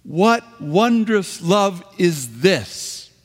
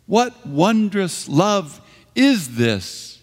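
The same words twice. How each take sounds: First: High, slow, joyful exclamation. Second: High, slow, wondering question; onlooker's astonished question; as a puzzled question. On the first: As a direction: proclaim "wondrous" as a declaration, not a question. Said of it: "but with an exclamation point". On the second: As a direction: ask it in real puzzlement, raised and slow. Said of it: "how can this be? Who". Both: Shown as a demonstration.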